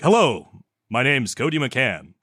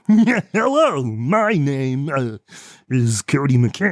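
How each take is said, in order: First: It is said in a smooth announcer voice. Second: It is said in a put-on cartoon character voice. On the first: "a voice reel will be like" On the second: "a character reel will be like"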